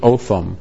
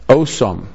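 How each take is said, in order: First: The middle consonant is a TH sound. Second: The middle consonant is an S sound. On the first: "the pronounce is Otham" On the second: "those who can't pronounce a TH"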